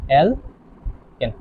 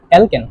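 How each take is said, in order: First: alkane very slow and softer, syllables split by a pause; drawn-out dictation. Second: Said in the usual way. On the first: Shown as a demonstration. Teacher dictating the first compound, alkane slowly in pieces. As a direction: separate the two syllables of alkane.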